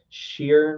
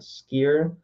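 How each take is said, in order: First: The name begins with an 'sh' sound. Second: The name begins with an 'sk' sound. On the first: "you know how a chef has the chef has the C H" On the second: "not skier"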